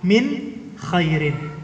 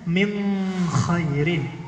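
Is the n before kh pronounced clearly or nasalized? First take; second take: clearly; nasalized. First: The n is pronounced clearly before kh. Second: The n is hidden as a nasal before kh. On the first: This follows the common reading tradition. "min ketemu kha itu izhar" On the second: This follows a different reading tradition. "kha itu termasuk huruf ikhfa"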